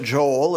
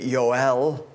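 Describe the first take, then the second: First: The name begins with a J sound. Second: The name begins with a Y sound. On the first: This is the modern form of the name. "That is the modern pronunciation of it" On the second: This is the original Hebrew form of the name. "It's actually"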